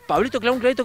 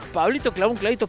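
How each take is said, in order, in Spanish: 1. Se dice a un ritmo más rápido. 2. Se dice a un ritmo más lento, normal.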